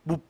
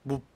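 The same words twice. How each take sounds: First: The word is said a little louder. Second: The word is said very quietly. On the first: The speaker calls it right. "I actually want it to be a little bit louder" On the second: The speaker calls it wrong. "Something very quiet like that"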